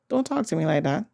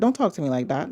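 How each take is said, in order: First: It is said in a gentle, soft tone. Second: It is said in a firm, assertive tone. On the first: A polite way of setting a boundary. The speaker calls it wrong. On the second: A boundary set with force. The speaker calls it right.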